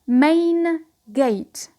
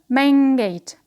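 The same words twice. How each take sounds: First: The first word ends with an n sound. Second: The first word ends with an ng sound.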